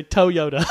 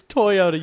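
First: Toyota mimicked loudly as TOE-yoda; mock Toyota with a TOE opening; imitating odd pronunciation. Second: Toyota slow and loud as TOY-oda; correct pronunciation. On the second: Shown as a demonstration. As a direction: spell out TOY in Toyota, slowly. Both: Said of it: "You say Toyota".

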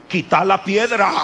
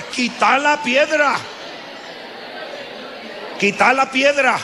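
First: Said in the usual way. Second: Shouted command. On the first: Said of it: "Dígaselo al que está al lado suyo". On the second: Shown as a demonstration. Preacher leading the congregation to shout "Quita la piedra". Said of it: "Dígale, por favor".

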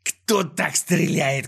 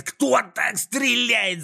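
First: Slow, higher-pitched drawn-out complaint; slow, scornful villain holler; irritated yell. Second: Very high, slow exasperated shriek; drawn-out shrill outrage; irritated yell. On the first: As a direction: stretch the words in exasperation. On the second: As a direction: screech each word in disbelief. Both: A narrator's reading. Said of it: "заорал с раздражением Клопс".

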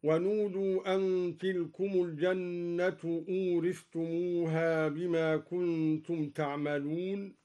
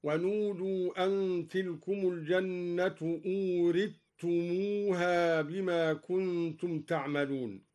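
First: Measured recitation, th sounded before t in أورثتموها; unmerged thaa. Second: Measured recitation, doubled t in أورثتموها; thaa merged into taa. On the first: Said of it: "أدغم الدوري الثاء في التاء". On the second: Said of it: "أدغم الدوري الثاء في التاء هكذا". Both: Shown as a demonstration.

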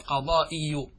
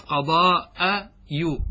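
First: قضائي drawn out slowly as qa-daa-'i-yu, i after the hamza; kasra on the hamza. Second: قضاء يو drawn out slowly as qa-daa-'a-yu, a after the hamza; fatha on the hamza. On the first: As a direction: say قضائي with a short i on the hamza and a final u. (نطق «قضائي» بهمزة مكسورة وياء مضمومة) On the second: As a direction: say قضاء يو with a short a on the hamza, then a separate yu. (نطق «قضاء يو» بهمزة مفتوحة وياء مضمومة) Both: Shown as a demonstration. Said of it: "قلبت كسرة الهمزة فتحة".

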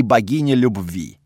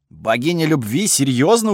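First: Said in the usual way. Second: Mildly incredulous echo, rising on "любви"; surprised. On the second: A narrator's reading. Narrator hearing of a love goddess among the gods, surprised. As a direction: question it in disbelief. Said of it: "удивился я".

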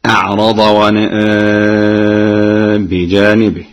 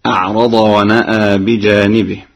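First: ونأى with medium madd and the alif tilted toward ya; Warsh reading. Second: Chanted plainly, ونأى with open alif; Quran recitation. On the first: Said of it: "هكذا". (توسط البدل مع تقليل الياء) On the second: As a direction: recite it straight. Hafs reading before Warsh. (تلاوة بالفتح) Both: Shown as a demonstration.

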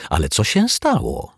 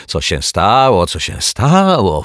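First: Said in the usual way. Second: Loud, drawn-out mocking echo; huffy snapping. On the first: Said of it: "zapytał detektyw Pozytywka". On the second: A narrator's reading. Neighbour throwing the detective's question back, huffy. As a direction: mimic the question back, louder and stretched. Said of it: "fuknęła pani Majewska".

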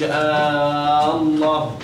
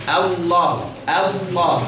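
First: Slow "آه الله" with the first a held long; wrong added alif. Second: "الله" with a short light a straight into heavy L; correct short hamza. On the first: Teacher showing the forbidden extra alif, first vowel dragged out. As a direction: stretch the opening hamza of "آه الله" into a long aa. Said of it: "ما تعملش ألف، ما تقولش". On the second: Teacher modelling it for learners, short opening vowel. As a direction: go from a clipped first a directly to the thick lam in "الله". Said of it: "تقول إيه؟". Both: Shown as a demonstration.

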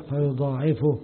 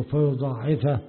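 First: فيضاعفه with a u vowel on the fa; teacher shows the raf' reading, فيضاعفه voiced with "fu"; nominative reading. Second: فيضاعفه with an a vowel on the fa; accusative reading. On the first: Teacher demonstrating a variant recitation, فيضاعفه with damma on ف. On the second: Teacher giving the alternative recitation, فيضاعفه with fatha on ف. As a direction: say فيضاعفه ending in "fa" before the pronoun. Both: Shown as a demonstration. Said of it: "وفي قراءة بالرفع".

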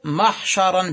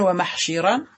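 First: محشرا as mahsharan, a on the shin; fatha form. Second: ومحشرا as wa-mahshiran, i on the shin; irregular kasra form. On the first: Teacher giving the regular noun, محشرا said mahsharan. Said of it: "بالفتح". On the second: Teacher giving the irregular noun, ومحشرا said wa-mahshiran. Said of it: "شذوذا". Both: Shown as a demonstration.

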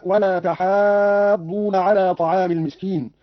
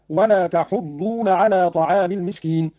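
First: Said in the usual way. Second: "تحضون" as "tahuddoona", short u on haa; damma, no alif. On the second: Shown as a demonstration. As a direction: drop the long aa, say hu- in "تحضون". ("تحضون" بضم الحاء وحذف الألف) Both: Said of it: "بضم الحاء وحذف الألف هكذا".

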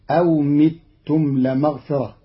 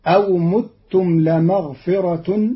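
First: أو متم بكسر الميم, mitum; Qalun reading. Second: أو متم بضم الميم; متم with damma on the meem, mutum; plain. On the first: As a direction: say متم with kasra on the meem, mitum. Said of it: "بكسر ضم الميم". (متم بكسر الميم كما قرأ قالون) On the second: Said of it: "قرأ قالون كلمتي متم". (متم بضم الميم) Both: Shown as a demonstration.

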